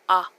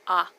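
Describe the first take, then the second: First: The vowel is a short open ah sound. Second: The same.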